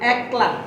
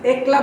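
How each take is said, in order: First: The vowel follows the standard pronunciation. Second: The vowel follows the written spelling. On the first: The speaker calls it right. "এটা শুদ্ধ উচ্চারণ হবে একলা" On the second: The speaker calls it wrong. "যদি আমরা একলা বলি তাহলে এটা ভুল"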